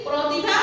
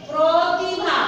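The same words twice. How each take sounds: First: Said in the usual way. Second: প্রতিভা with the first vowel said as a clear o, protibha; teacher models প্রতিভা with a rounded o after pr; o sound pronunciation. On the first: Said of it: "লেখার সময় লিখছি". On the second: Shown as a demonstration. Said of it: "ও উচ্চারিত হবে".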